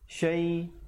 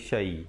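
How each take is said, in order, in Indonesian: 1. Bunyi sh digandakan dan ditahan. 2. Bunyi sh tunggal dan pendek. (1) "Yang bersabdu syai" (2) "bukan syai"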